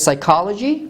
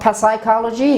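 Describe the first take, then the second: First: The initial P is silent. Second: The initial P is pronounced. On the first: The speaker calls it right. "It is psychology" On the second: The speaker calls it wrong. "It is not psychology"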